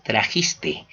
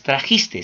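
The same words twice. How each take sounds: First: Said in the usual way. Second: "trajiste" said as "trajistes", final s added; wrong final s. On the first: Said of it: "solamente es". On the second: Shown as a demonstration. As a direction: end "trajiste" on a stray s. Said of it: "no es".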